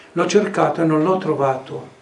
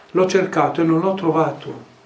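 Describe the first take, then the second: The two takes are said the same way.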